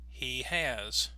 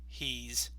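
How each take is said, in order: First: It is said as two separate syllables. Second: It is contracted into one single syllable. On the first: "two beats, two syllables" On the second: "they will only have one"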